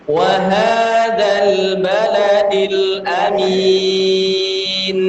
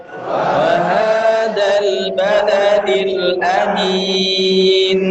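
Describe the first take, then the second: The two takes are said the same way.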